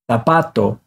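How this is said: The first consonant is a TH sound. "it's going to sound like the T H in think"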